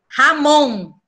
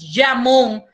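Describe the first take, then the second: First: The j is a harsh throaty h sound. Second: The j is a soft buzzing zh sound. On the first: The speaker calls it right. "a gente pronuncia jamón" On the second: The speaker calls it wrong. "a gente no pronuncia jamón"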